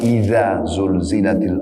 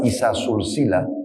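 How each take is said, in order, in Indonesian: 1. Konsonan-konsonan itu diucapkan dengan bunyi z yang berdengung. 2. Konsonan-konsonan itu diucapkan dengan bunyi s yang mendesis. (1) "Cara membaca" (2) "kalau Anda baca isa sulsila, ... berubah makna"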